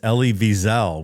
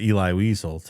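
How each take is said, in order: First: The first name has its looked-up pronunciation. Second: The first name has a different, assumed pronunciation. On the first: The speaker calls it right. "I actually looked up the pronunciation too, and it's" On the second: The speaker calls it wrong. "I always thought it was"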